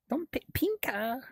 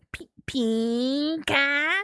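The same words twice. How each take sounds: First: High, soft, half-whispered "pinka"; tiny whispery "pinka"; hushed playful word. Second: "pinka" stretched very long and high; slow, high, sustained "pinka"; playfully drawn-out word. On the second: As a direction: draw out the first vowel of "pinka". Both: Pretend. Playing with the word pink.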